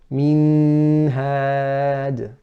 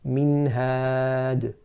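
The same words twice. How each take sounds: First: The n has a drawn-out nasal sound. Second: The n is clear with a short nasal sound. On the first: The speaker calls it wrong. "Incorrect would be to say minhad" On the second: The speaker calls it right. "you say minhad"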